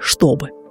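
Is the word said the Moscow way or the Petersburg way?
Moscow. One sound is changed from how it is written. The speaker is from Moscow. "вместо московского"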